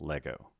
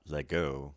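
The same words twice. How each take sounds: First: "Lego" with the stress on Le; "Lego", firm Le, then unstressed go; stress on first syllable. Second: "Lego" stressed on go instead of Le; "Lego", light Le and strong go; stress on second syllable. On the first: Teacher correcting for the acute accent, "Lego" stressed on Le. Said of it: "accent is on the first syllable". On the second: Teacher showing learners the wrong accent, "Lego" stressed on go. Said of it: "Not Lego". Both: Shown as a demonstration.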